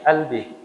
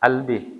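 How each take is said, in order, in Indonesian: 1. Kata itu diawali dengan hamzah. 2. Kata itu diawali dengan hamzah.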